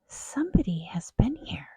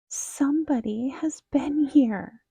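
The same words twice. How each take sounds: First: It is said in a softer, gentler growl. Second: It is said in a high, squeaky voice.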